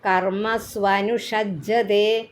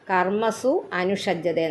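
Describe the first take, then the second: First: The two words are fused into one sound. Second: The two words are said separately, unjoined. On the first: "ഒന്നിച്ച് വായിക്കുമ്പം" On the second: "ആ വാക്ക് കർമ്മസു അനുഷജ്ജത്തെ എന്നാ"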